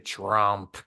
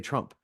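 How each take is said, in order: First: The word is said with a contemptuous sneer. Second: The word is said plainly, with no sneer. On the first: "she would get that sneer in her voice" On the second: "She wouldn't like just say Trump"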